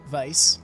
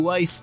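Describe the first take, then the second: First: The name begins with a V sound. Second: The name begins with a W sound. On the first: The speaker calls it right. "Vice, rather. I should really speak his name correctly" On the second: The speaker calls it wrong. "it's not that I enjoy calling him Weiss. It's just I slip up sometimes"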